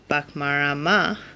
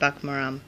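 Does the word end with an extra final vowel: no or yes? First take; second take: yes; no. First: The word ends with an extra final vowel. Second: The word ends without the final vowel. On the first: "instead of saying bakmarama" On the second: "in Jambo Poingo it's bakmaram"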